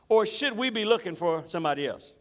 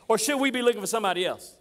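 First: It is asked in a calm, innocent tone. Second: It is asked in a demanding, impatient tone. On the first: The asker is simply seeking clarification. "these words seem innocent enough. It almost seems like John's just trying to get some clarification" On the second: The asker is frustrated and demanding a straight answer. "Let me tell you how John really said this"

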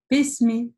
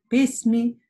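The two takes are said the same way.

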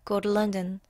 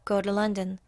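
Both takes have the same delivery.

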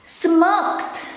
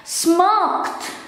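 No difference in how they are said.

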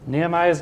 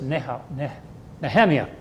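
First: The name is pronounced the English way. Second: The name is pronounced the Hebrew way.

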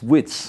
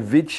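First: The ending is said like 'wits'. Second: The ending is said like 'vich'. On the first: The speaker calls it right. "it's wits" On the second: The speaker calls it wrong. "you don't say vich"

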